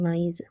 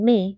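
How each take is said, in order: First: The two vowels are said as separate sounds. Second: The two vowels merge into one sound. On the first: The speaker calls it right. "we are saying mais" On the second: The speaker calls it wrong. "Instead of saying may"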